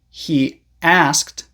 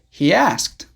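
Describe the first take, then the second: First: The words are separated with no Y sound. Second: A small Y sound joins the words. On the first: "Instead of saying" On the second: "you can connect them with a small Y sound"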